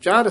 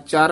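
First: The word is said heavily, with added weight. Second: The word is said lightly, without weight. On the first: The speaker calls it right. "ਇਹ ਭਾਰਾ ਉਚਾਰਨ ਕਰਨਾ" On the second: The speaker calls it wrong. "ਚਰ ਨਹੀਂ ਕਹਿਣਾ"

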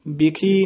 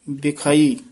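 First: The word ends in a short 'khi' sound. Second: The word ends in a long 'khai' sound. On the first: The speaker calls it wrong. "ਬਿਖੀ ਨੀ ਕਹਿਣਾ" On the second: The speaker calls it right. "ਇਹ ਬਿਖਾਈ ਉਚਾਰਨ ਕਰਨਾ"

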